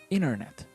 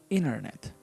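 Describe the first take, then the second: No difference in how they are said.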